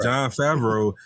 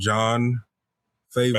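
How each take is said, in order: First: The surname ends with a 'vro' sound. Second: The surname sounds like the word 'favor'. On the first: The speaker calls it right. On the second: The speaker calls it wrong.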